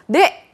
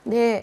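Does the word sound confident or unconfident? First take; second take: confident; unconfident. First: It is said loudly and confidently. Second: It is said weakly and without confidence. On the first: The speaker seems energetic and sure of themselves. The speaker calls it right. "이렇게 씩씩하게 얘기하는 거" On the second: The speaker seems unsure of themselves. The speaker calls it wrong. "이렇게 자신 없게 얘기하는 거"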